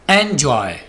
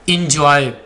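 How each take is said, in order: First: The first vowel sounds like the one in 'bet'. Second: The first vowel sounds like the one in 'bit'. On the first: The speaker calls it right. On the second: The speaker calls it wrong. "ये इंजॉय नहीं होगा"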